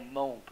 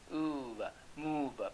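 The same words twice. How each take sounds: First: "move" wrongly rhyming with "stove"; long o mispronunciation. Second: "move" drawn out as moov; long oo vowel. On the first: Teacher showing students the wrong reading, "move" said as mohv. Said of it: "你要念o呢哈". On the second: Teacher modelling the word from French, long "oo" in "move". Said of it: "不然你要念move呢". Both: Shown as a demonstration.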